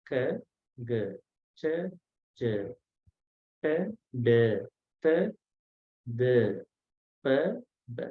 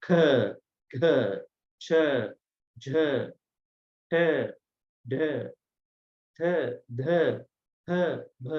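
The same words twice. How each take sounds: First: K, g, ch, j, t, d, p, b short, with no puff; unaspirated consonants. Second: K, g, ch, j, t, d, p, b each with a puff of breath; aspirated consonants. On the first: Teacher drilling once more, K, g, ch, j, t, d, p, b unaspirated. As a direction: keep breath back on K, g, ch, j, t, d, p, b. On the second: Teacher contrasting these ones, k, g, ch, j, t, d, p, b aspirated. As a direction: breathe hard through k, g, ch, j, t, d, p, b. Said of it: "are aspirated". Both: Shown as a demonstration.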